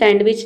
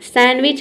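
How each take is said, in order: First: A d sound is pronounced before the w. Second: No d sound is pronounced before the w. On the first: The speaker calls it wrong. "सैंडविच नहीं होता है" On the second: The speaker calls it right. "सैंडविच होता है"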